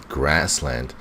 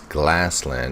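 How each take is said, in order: First: The second sound is an R sound. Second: The second sound is an L sound. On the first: The speaker calls it right. "she wants to say grassland" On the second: The speaker calls it wrong. "pronouncing the er as a l. It comes out as glassland"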